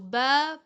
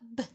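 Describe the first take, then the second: First: The consonant is followed by a short vowel. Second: The consonant is said with no vowel after. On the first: "In the beginning it was ba" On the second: "in the end it was b"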